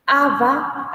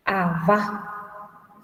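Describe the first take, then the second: First: Aba with a high, strong first A; stress on first syllable. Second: Aba said a-BA, weight on the final A; careful a-BA demo, ending stressed; stress on last syllable. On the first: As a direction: hit the opening A of aba. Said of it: "tiene acento". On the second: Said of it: "Sin acento inicial". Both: Shown as a demonstration.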